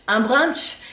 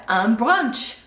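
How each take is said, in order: First: "brunch" said the French way, a rounded open vowel and a rising end; French-style brunch. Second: Said in the usual way. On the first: Shown as a demonstration. Teaching viewers, "brunch" in French pronunciation with a rise. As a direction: say "un brunch" like a Parisian, lifting the last word. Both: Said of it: "all of these words are still said with a French accent".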